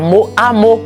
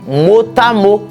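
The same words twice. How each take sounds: First: No linking sound joins mot and à. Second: A linking t sound joins mot and à. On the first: The speaker calls it wrong. "C'est pas" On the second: The speaker calls it right. "liaison obligatoire"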